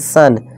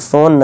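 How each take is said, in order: First: The vowel sounds like 'uh'. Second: The vowel sounds like 'oh'. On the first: The speaker calls it right. "सोन नहीं सन" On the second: The speaker calls it wrong. "सोन नहीं सन"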